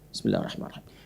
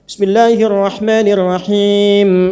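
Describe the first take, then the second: First: It is said quietly, almost silently. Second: It is said aloud, clearly voiced.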